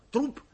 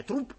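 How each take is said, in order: First: Said in the usual way. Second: ТРУП repeated insistently at high pitch. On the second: A narrator's reading. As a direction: press the word ТРУП, pitched up. (настойчиво и высоко повторить «ТРУП») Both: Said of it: "настойчиво повторил профессор".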